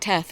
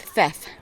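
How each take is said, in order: First: The name begins with a plain t sound. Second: The name begins with a th sound. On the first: The speaker calls it wrong. "I keep calling it Teth" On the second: The speaker calls it right. "they pronounce the, the H in the T H. So it's Theth"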